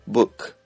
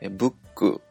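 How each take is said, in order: First: The word ends with a consonant sound. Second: The word ends with a vowel sound. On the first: "全部子音で終" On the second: "これ全部母音で終わっているんですが"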